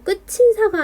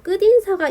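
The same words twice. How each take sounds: First: The final consonant becomes a 'ch' sound. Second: The final consonant becomes a 'd' sound. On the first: The speaker calls it wrong. "끝인사가 아니라" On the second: The speaker calls it right. "국외음화가 일어나지 않고 끝에 티읕을 오히려 평파음화한 뒤에 연음하여서 끝인사가 돼버리는 거죠"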